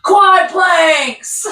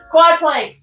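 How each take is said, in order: First: "quad planks" laughed out loud and high; laughing. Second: Said in the usual way. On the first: Real, not acted. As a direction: grin through "quad planks". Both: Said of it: "one of my personal favorites".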